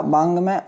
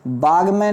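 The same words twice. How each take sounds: First: बांग में with a nasal ng; correct form. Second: बाग में with no nasal; plain g in बाग में; wrong form. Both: Shown as a demonstration. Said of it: "नहीं होता".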